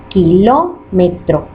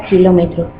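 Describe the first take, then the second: First: "kilómetro" slowly, syllable by syllable; split into syllables. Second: Said in the usual way. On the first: Shown as a demonstration. Teacher showing how "kilómetro" divides, slow separated syllables. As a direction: break "kilómetro" into ki, ló, me, tro, evenly spaced. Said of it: "se divide así". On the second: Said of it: "la palabra kilómetro se divide así".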